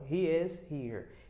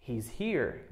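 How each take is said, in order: First: He and is are said as separate words. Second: He and is merge into one contracted syllable.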